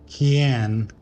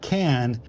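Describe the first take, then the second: First: It is said in a Slavic accent. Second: It is said in a plain English accent. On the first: The speaker calls it right. "can register" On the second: The speaker calls it wrong. "Not can"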